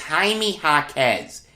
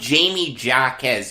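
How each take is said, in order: First: The first name is said with Spanish sounds. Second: The first name is said like English Jamie. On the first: The speaker calls it right. "It's a Spanish pronunciation" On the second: The speaker calls it wrong. "I was calling him Jamie Jaquez yesterday. I feel like an idiot"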